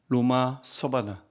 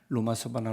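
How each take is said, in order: First: The phrase is said at a normal pace. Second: The phrase is said quickly and run together.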